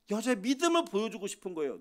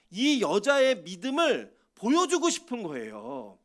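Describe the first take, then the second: First: Said in the usual way. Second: 보여주고 stretched slow and pressed harder; slow emphatic stress. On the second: Shown as a demonstration. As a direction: lean on 보여주고, slow and deliberate.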